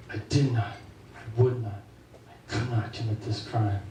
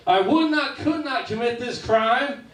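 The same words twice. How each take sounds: First: Solemn denial. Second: Much higher, slow, sing-song rhyming denial; Dr. Seuss rhyme. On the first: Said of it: "standing in front of a jury". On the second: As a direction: bounce it like a children's storybook verse. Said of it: "the Doctor Seuss defense". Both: Retold or imitated.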